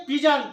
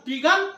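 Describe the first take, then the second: First: पिजन with "j" in the second syllable; correct pronunciation. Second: पिगन with "g" in the second syllable; hard "g" inside पिगन, like "go"; wrong pronunciation. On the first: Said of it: "क्या पढ़ेंगे?". (पिजन, दूसरे अक्षर में "ज") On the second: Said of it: "पिगन नहीं". (पिगन, दूसरे अक्षर में "ग") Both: Shown as a demonstration.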